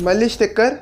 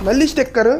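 The two takes are said the same way.

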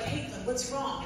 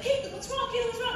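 First: Said in the usual way. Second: High, mock-concerned repeated question; mock fussing chorus. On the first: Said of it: "Van was like". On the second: Dinner guests crowding Caitlyn, high mock concern. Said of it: "everybody was like".

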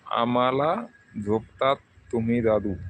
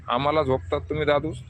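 First: Said in the usual way. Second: आम्हाला झोपतात तुम्ही दादूस read back as a rising, baffled question; puzzled question. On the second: Shown as a demonstration. Repeating a viewer's odd comment, puzzled. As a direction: ask Dadus as if the words make no sense. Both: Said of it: "काय मला समजलं नाही बा".

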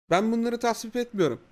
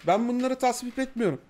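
Both takes have the same delivery.

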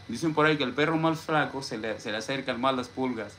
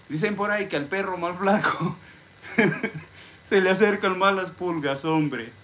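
First: Said in the usual way. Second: High, louder, playful put-on voice with a laugh; high-pitched mock folk wisdom; jokey proverb voice. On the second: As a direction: recite the saying high and jokingly, chuckling midway. Jokingly recites a garbled saying.

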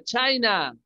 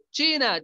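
First: China said "CHAI-na"; China with the i of "shine"; English pronunciation. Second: China said "CHEE-na"; China with Spanish i, as in "chico"; Spanish pronunciation. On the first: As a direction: say China the English way, with an eye vowel. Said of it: "En inglés". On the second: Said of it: "el país de China". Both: Shown as a demonstration.

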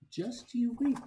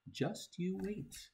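First: Much higher, bursting with glee; excited promise. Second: Softer, slower, higher teasing; teasing hushed promise. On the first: Reader promising the kid fun, high and excited. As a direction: let the second one pop up high. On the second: Reader teasing the kid, hushed and slow. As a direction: hold back a sly promise, slowly. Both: Acted.

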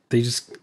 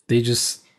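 No difference in how they are said.

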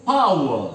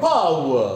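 First: "power" with a light puff of air after the p; aspirated power. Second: "Power" with a clear puff of air after the P; aspirated power again. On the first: Teacher modelling English "power" for the students, with an aspirated p. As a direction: say "power" with a breathy p, between प and फ. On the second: Teacher repeating "Power" for the students, with an aspirated P. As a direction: breathe out on the P of "Power". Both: Shown as a demonstration. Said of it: "it's प plus फ।".

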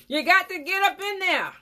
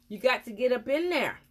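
First: Much higher and louder insistence; emphatic shout. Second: Said in the usual way. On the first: Real, not acted. Dentist insisting viewers scrub the appliance, loud and high. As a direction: hammer home the instruction.

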